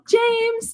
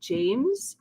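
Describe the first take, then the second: First: The voice is pitched higher and light. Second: The voice is pitched much lower and firm. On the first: The speaker is keeping up a polite public image. "you might talk like that at first" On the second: The speaker is serious and angry. "their voice drops an octave"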